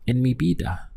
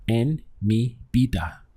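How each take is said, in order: First: En mi vida, vida with a firm B and a lift; strong B sound. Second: En mi vida with vida said as bida, a firm B; strong B sound. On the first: Teacher repeats vida for learners, strong B. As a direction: repeat vida as bida, B clearly stressed. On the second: Teacher models Spanish B sound in vida. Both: Shown as a demonstration. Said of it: "Notice the strong B sound here over the V".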